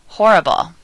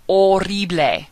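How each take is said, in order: First: Said in the usual way. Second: Spanish "Horrible", as "o-RREE-bleh"; Spanish, silent H. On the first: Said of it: "similar and mean the same thing". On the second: Shown as a demonstration. Teacher modelling a cognate, Spanish "Horrible" with silent H. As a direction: drop the H in "Horrible" and roll the R. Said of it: "H in Spanish is always silent".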